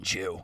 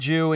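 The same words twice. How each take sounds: First: The word is said in a harsh, contemptuous tone. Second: The word is said in a plain, neutral tone. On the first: It is used as an insult. "Or you could say" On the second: It is an ordinary description of someone's religion. "that's very common"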